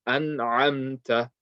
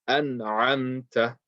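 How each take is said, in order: No difference in how they are said.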